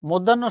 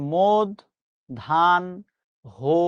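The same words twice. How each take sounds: First: "মধ্যাহ্ন" said as mod-dhan-no; common pronunciation. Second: "মোদ ধান হো" with pauses, stepping down; correct pronunciation, syllable by syllable. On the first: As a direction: say "মধ্যাহ্ন" with double n, no h. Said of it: "মধ্যাহ্ন শব্দের সঠিক উচ্চারণ". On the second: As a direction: break "মোদ ধান হো" into three separate beats. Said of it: "সঠিক উচ্চারণ হচ্ছে". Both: Shown as a demonstration.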